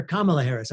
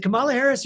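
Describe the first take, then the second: First: "Kamala" with the stress up front, KAH-muh-la; stress on first syllable. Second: "Kamala" with the stress on the middle syllable, kuh-MAH-la; stress on second syllable. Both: Shown as a demonstration. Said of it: "make sure I pronounce it right".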